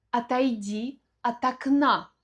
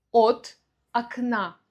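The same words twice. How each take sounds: First: От окна as one word, "atakná"; preposition joined. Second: От окна broken apart, full "ot", pause, "akna"; split preposition. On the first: Mother tells child to move, от окна joined. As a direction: run от into окна with reduced vowels. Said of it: "произносим это в одно слово". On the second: Teacher showing the separate words, от окна split. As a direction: give От its own stressed o. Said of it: "произносим вместе". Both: Shown as a demonstration.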